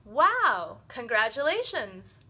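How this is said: The voice rises and sounds excited. The speaker is pleased and reacting positively. "we have a tone that goes up"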